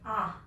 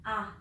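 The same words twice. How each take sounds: The two takes are said the same way.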